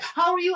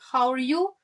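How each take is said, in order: First: It is said hurriedly, in passing. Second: It is said calmly, with attention.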